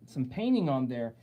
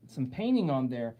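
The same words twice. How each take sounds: The two takes are said the same way.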